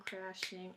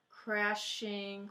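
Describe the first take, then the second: First: Said in the usual way. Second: "Crashing" stretched into two beats, crash-ing; syllable by syllable. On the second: Shown as a demonstration. Teacher counting syllables for the class, "Crashing" sounded out in two parts. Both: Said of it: "two syllables".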